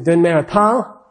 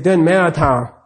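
First: The voice rises at the end. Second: The voice falls at the end.

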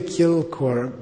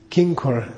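First: The middle consonant is an l sound. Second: The middle consonant is an n sound. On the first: The speaker calls it right. "It's really Kilkor" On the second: The speaker calls it wrong. "It came to be pronounced Kinkor"

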